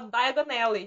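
The two words are run together.

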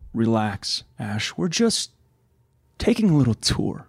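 The line sounds menacing, with laughter at the end.

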